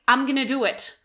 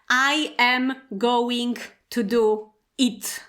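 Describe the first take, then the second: First: The words are contracted and run together. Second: Every word is said fully and separately. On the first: "native speakers say" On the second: "at school we often learn"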